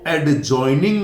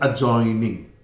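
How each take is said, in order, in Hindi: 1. 'j' से पहले 'd' की ध्वनि उच्चारित होती है। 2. 'j' से पहले 'd' की ध्वनि साइलेंट होती है। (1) "इसलिए इसको एडजॉइनिंग नहीं बोलेंगे" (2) "डी साइलेंट है, इसका उच्चारण नहीं होगा"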